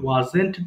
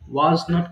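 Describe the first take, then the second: First: It is said as one contracted word. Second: It is said as two separate full words. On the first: "ওয়াজ নট কে আমরা যখন একসাথে বলবো তখন আমাদের বলতে হবে ওয়াজেন্ট" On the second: "ওয়াজ নট কে"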